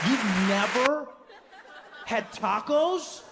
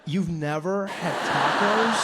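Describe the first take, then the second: First: Incredulous. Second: Slow disbelief. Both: Retold or imitated. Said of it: "Dave's disbelief".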